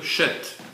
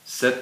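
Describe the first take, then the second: First: The name begins with a 'sh' sound. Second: The name begins with an 's' sound. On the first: This is the original Hebrew form of the name. The speaker calls it right. "En hébreu, Shet ... c'est bien un Shin" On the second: This is the form used in the translation. The speaker calls it wrong. "je ne sais pas pourquoi on a mis Seth"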